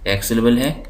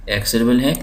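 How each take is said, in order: Both takes have the same delivery.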